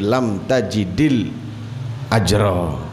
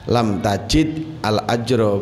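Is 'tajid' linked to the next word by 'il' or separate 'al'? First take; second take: linked; separate. First: Tajid runs into the next word with an i. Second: Tajid ends without a vowel, then separate al. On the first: The speaker calls it right. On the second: The speaker calls it wrong. "jadi bukan dibaca"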